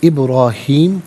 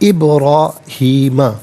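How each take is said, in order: First: The word ends on the m sound. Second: The word ends with a final a vowel. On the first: The reading stops at this word. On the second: The reading continues without stopping.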